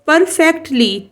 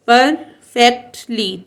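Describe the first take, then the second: First: Said in the usual way. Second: perfectly in three beats, "पर, fact, ली"; short break after each syllable of perfectly; teacher sounding out perfectly piece by piece; split into syllables. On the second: Shown as a demonstration. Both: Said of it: "three syllable word है".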